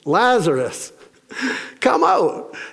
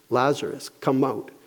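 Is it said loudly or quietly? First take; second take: loudly; quietly. First: It is said in a loud voice. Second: It is said in a quiet voice.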